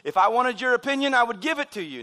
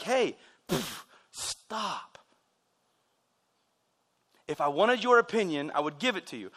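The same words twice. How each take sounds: First: Higher, louder smart-aleck retort; sarcastic dad. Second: Correcting dad. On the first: Dad putting down his kid, higher smart-aleck delivery. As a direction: imitate a dad's sarcastic comeback. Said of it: "my dad was being sarcastic, uh, smart aleck". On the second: Dad correcting his child, lightly firm and measured. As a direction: imitate a dad reining in his kid. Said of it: "oftentimes it was to correct me". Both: Retold or imitated.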